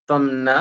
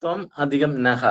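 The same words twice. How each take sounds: First: ത്വം ന said together with open "naa"; joined form. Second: Slow ത്വം, then നഹ ending in "ha"; visarga sounded. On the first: Teacher joining the words, ത്വം ന together. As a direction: run ത്വം into ന, no added pause. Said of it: "ന എന്നുള്ളതിന്റെ pronunciation". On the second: Teacher showing the split, slow ത്വം and നഹ with "ha". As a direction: give നഹ a clear breathed "ha" ending. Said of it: "നഹ എന്ന് വരണം". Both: Shown as a demonstration.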